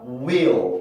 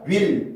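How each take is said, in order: First: The L glides, adding an inserted middle sound. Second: The L is plain, with no inserted middle sound. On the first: The speaker calls it right. "이렇게 혀가 밑으로 갔다가 올라가는 그 발음" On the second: The speaker calls it wrong. "이게 아니라"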